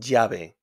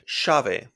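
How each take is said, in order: First: The double L sounds like 'y'. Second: The double L sounds like 'sh'. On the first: This is the usual pronunciation. "Normal sound is Y" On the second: This is how it is said in Argentina and Uruguay. "in Argentina and in Uruguay, they pronounce this double L like an S H"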